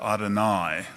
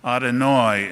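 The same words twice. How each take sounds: First: It uses the modern Israeli Hebrew pronunciation. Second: It uses the older, Brooklyn-style Hebrew pronunciation. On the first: "instead of" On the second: "still spoke Hebrew with the older pronunciation"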